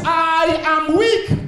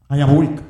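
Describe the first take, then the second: First: High, long-drawn, almost chanted cry; preached cry of weakness. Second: Said in the usual way. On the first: Acted. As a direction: stretch I AM WEAK out high and slow. Preacher cries out David's confession.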